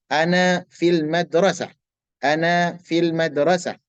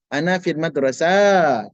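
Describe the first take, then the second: First: "Ana fil madrasah" slow, with a short sin; correct reading. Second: "madrasah" slow, with the sin vowel drawn out; wrong long sin. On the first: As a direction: read "Ana fil madrasah" slowly and evenly. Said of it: "Saya berada di sekolah". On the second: Teacher showing the mistake the class must avoid. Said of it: "Jangan panjangkan sinnya". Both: Shown as a demonstration.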